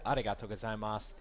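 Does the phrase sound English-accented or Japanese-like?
Japanese-like. It is said with a more Japanese-like pronunciation. The speaker calls it right.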